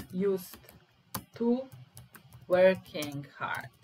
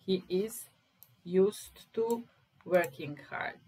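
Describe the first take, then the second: First: Each word set apart, slow and loud; teacher drilling "used to working hard"; slow stressed drill. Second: Said in the usual way. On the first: Shown as a demonstration. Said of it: "slow stressed teaching delivery". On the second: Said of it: "repeats phrase normally".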